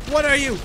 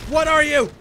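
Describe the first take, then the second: First: Loud, higher alarmed demand; alarmed shout. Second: Even louder, higher panicked yell; full shout. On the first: Gamer yelling at a monster, loud alarmed question. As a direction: shout it at the thing in fright. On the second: Gamer panicking at the monster, full shouted question. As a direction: scream the question at it. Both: Real, not acted.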